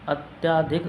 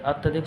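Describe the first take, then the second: First: The vowel after 'ty' is long. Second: The vowel after 'ty' is short. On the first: The speaker calls it wrong. "गलत है" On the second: The speaker calls it right. "शुद्ध होता है"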